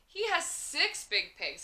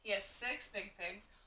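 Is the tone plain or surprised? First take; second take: surprised; plain. First: The sentence is said in an amazed voice. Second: The sentence is said in a calm voice. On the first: The speaker is amazed by the fact. "if you're saying it with a whole lot of oomph because you're surprised" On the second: The speaker is simply stating a fact. "Just as a telling sentence, it's telling what he has"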